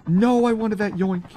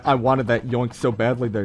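First: High, whining lament; disappointed wail. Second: Said in the usual way. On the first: Real, not acted. Streamer who just missed a kill, disappointed wail. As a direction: wail it with the pitch jumped up. Kill lost right before him.

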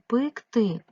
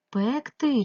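First: "пекти" slowly, first vowel said as "и"; E turned to Y. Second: "Пекти" slowly, with an open "е"; clear E vowel. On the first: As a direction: sound out "пекти" as pyk-ty, loud and slow. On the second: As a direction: sound out "Пекти" as pek-ty, loud and slow. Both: Shown as a demonstration. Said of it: "як правильно".

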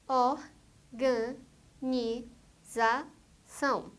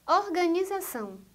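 First: "organização" very slowly as or, ga, ni, za, ção; five separate beats in "organização"; syllable by syllable. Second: Said in the usual way. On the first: Shown as a demonstration. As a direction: pause after each syllable of "organização". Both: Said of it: "quatro ou mais sílabas".

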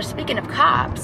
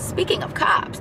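First: Said in the usual way. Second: Higher, breathy whispered aside; stage whisper. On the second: Shown as a demonstration. To her viewers about the cops nearby, stage whisper. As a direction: hush it like a secret warning. Repeats phrase to mark cops.

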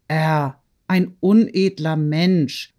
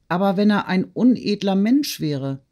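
First: Slow, drawn-out disbelief; incredulous echo. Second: Raised, probing what-if; doubting question. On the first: Woman repeating the slur on her lover, incredulous. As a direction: weigh each word slowly, dismissing the idea. Natalie echoes the doubt in disbelief. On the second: Friend questioning the lover's honour, doubtful and probing. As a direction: put the doubt forward, pitched up. Sonja doubts, Natalie echoes her words. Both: A narrator's reading.

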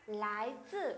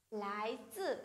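The two takes are said the same way.

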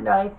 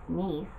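First: "nice" said like the English word nice, rhyming with dice; the wrong reading, plain English "nice". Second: "Nice" said the French way, "neese", with a long ee; "Nice" as the French city, neece not nice; correcting to French, softer "Nice". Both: Shown as a demonstration. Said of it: "Not nice, it's Nice".

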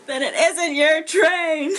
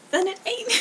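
First: Slow, louder, over-careful enunciation; careful correction. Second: Said in the usual way. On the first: Shown as a demonstration. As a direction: spell it out word by word, proper. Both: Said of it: "I don't know how to say this in an accent".

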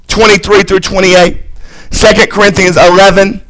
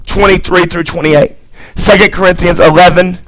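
Both takes have the same delivery.

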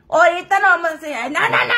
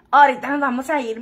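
First: Higher, protesting voice for the friend; mock the friend's quick refusal; friend's voice, raised and protesting; imitating her friend. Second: Said in the usual way. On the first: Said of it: "me dice mi amiga".

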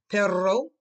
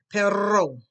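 First: Loud Perro with a long rolled rr; Perro with a trilled rr, called out to the class. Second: Loud Perro, falling, rr trilled; Perro called out with a rolling rr; rolled r. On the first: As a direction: roll the rr in Perro hard. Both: Shown as a demonstration. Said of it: "your tongue must roll".

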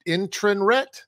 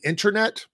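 First: "internret" with an extra R before the last syllable; misspelling read literally. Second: Said in the usual way. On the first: Shown as a demonstration. Reading out a video title's typo, misspelling read literally. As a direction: say "internret" exactly as misspelled, ending in "ret". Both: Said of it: "I'm assuming they mean internet".

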